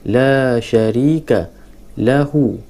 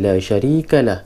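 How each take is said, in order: First: The last word ends with a full u vowel. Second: The last word is cut off after the h. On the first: The reading continues on. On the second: The reader stops here.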